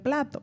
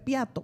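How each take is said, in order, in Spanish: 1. La palabra empieza con un grupo 'pl' claro. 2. La L se cambia por una 'i'. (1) "en vez de plato" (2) "él dice piato"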